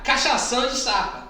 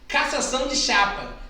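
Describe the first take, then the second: First: It is said even faster, with a slurred sound. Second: It is said quickly. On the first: "Aí mais rápido" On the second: "Agora fala rápido"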